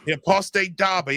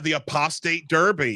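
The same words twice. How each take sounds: First: It is said in a put-on English accent. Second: It is said in an American accent.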